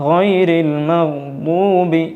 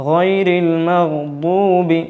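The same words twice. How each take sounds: The two takes are said the same way.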